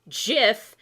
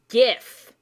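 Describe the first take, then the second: First: The word begins with a j sound. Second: The word begins with a hard g sound. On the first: The speaker calls it wrong. "the peanut butter way" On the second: The speaker calls it right. "the correct way"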